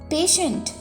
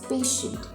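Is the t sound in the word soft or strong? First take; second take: strong; soft. First: The t sound is clear and prominent. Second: The t sound is soft and not prominent. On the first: A person receiving medical care. "T is pronounced very clearly and prominently" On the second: Calm and willing to wait. "T is pronounced softly, not so prominently"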